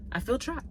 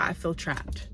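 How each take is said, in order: First: "I feel trapped" pitched up on feel, rising at the end; rising dramatic repeat. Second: Said in the usual way. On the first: Shown as a demonstration. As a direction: lift "feel" and let "trapped" rise like a plea.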